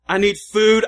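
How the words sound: It is said urgently, with desperation. The need is urgent and vital. "a little bit more of a sense of desperation there"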